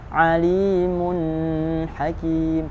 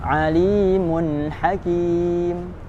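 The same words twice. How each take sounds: First: The n is prolonged with an added nasal hum. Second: The n is clear with no added nasal hum. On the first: The speaker calls it wrong. "Bukan dibaca alimun hakim, salah" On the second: The speaker calls it right. "dibaca jelas sesuai makhrajnya tanpa tambahan dengung"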